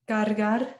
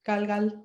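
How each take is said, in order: First: The word is said with clear R sounds. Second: The word is said with L sounds replacing R.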